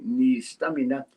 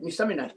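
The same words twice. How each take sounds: First: The phrase is said slowly. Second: The phrase is said quickly. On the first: The speaker calls it right. "You always talk slowly" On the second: The speaker calls it wrong. "you never talk like that"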